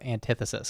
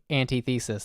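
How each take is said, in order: First: The stress is on the second syllable. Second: The stress is on the first syllable. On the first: "instead of antithesis" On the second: "I'm now putting emphasis on anti because I like that"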